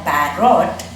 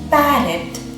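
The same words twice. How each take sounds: First: The second syllable has a full O vowel. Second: The second syllable has a reduced schwa vowel. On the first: The speaker calls it wrong. "you don't pronounce it as carrot or parrot" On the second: The speaker calls it right. "it's pronounced as parrot"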